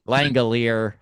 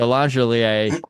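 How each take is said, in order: First: The G is hard, like in go. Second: The G is soft, like a J sound. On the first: It is said the usual way. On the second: It is said the French way.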